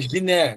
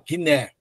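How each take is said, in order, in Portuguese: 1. Começa com um som de j suave. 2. Começa com um som de g duro. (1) "se fosse como J em português, seria" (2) "Não, Gui, ó"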